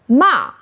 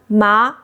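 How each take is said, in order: First: The pitch falls sharply from high. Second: The pitch rises from mid to high. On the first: It means scold. "Fourth tone ma means scold" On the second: It means hemp. "Second tone ma means hemp"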